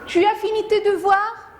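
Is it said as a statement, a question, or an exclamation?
question. It is said as a question.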